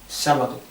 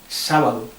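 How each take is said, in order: No difference in how they are said.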